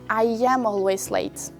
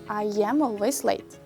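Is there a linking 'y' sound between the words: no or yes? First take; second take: yes; yes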